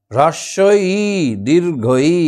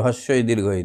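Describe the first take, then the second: First: হ্রস্বই said crisply with the r cluster, দীর্ঘই said separately and clearly; careful pronunciation. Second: Said in the usual way. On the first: Shown as a demonstration. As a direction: spell out হ্রস্বই দীর্ঘই precisely for pupils. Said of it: "উচ্চারণটা দেখো". (স্পষ্ট উচ্চারণে হ্রস্বই দীর্ঘই) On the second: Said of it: "একটু ভালো করে উচ্চারণ করলে".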